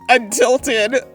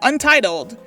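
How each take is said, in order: First: The word is said as untilted, l before t. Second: The word is said as untitled, t before l. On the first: This is how it is read silently. The speaker calls it wrong. "But in my head, I'm like" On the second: This is how it is read out loud. The speaker calls it right. "read this for me, I will be like"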